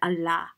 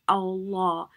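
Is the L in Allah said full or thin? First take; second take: thin; full. First: The L is light, with a thin mouth. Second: The L is heavy, with a full mouth. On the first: The speaker calls it wrong. "you don't say Allah" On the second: The speaker calls it right. "you say Allah, like a round face"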